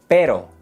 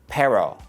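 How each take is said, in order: First: The R is a quick tongue tap. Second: The R is an English-style R. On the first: The speaker calls it right. "The tongue taps the roof of your mouth" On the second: The speaker calls it wrong. "No es pero"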